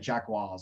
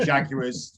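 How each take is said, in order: First: It is said the posh upper-class way. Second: It is said the common British way.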